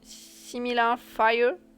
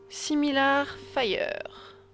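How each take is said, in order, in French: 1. Il est prononcé avec un accent anglais. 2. Il est prononcé avec un accent français.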